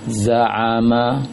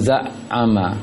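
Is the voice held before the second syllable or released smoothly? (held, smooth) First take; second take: smooth; held. First: The syllables flow smoothly without holding the voice. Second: The voice catches and holds before the second syllable. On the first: The speaker calls it right. "Lepaskan saja bacaannya" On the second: The speaker calls it wrong. "Jangan za'ama, karena kan tertahan dulu suaranya"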